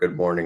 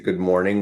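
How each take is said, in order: First: The pitch goes lower on the greeting. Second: The pitch rises on the greeting. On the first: "on a voice on a lower" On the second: "with the his like voice on a rise"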